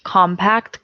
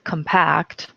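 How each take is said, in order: First: Compact with stress on COM, rising; noun stress. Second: Compact with stress on -PACT, falling; verb stress. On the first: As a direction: stress the first syllable of compact. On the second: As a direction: stress the second syllable of compact. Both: Shown as a demonstration. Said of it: "homographs list".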